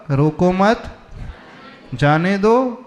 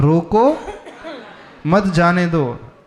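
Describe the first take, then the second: First: रोको मत as one rising phrase, pause, then जाने दो; pause after मत. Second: Rising रोको, long pause, then मत जाने दो; रोको lifted and set apart, मत जाने दो falling at the end; pause after रोको. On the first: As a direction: hold the comma after मत. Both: Shown as a demonstration. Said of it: "बस कॉमा इधर से उधर हुआ".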